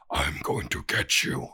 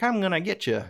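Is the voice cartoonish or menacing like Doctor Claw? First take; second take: menacing; cartoonish. First: It is said in a menacing Doctor Claw voice. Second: It is said in a wacky cartoon voice.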